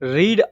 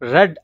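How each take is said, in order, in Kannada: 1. ಸ್ವರ ದೀರ್ಘ 'ee' ಶಬ್ದ ಇದೆ. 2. ಸ್ವರ ಹ್ರಸ್ವ 'e' ಶಬ್ದ ಇದೆ. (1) "ರೀಡ್ ಅಂತ ಪ್ರೆಸೆಂಟ್ ನಲ್ಲಿ ಕರಿತೀವಿ" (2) "ರೆಡ್ ಅಂತ ಪಾಸ್ಟ್ ನಲ್ಲಿ ಪ್ರೊನೌನ್ಸ್ ಆಗುತ್ತೆ"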